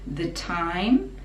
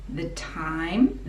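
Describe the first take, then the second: The two takes are said the same way.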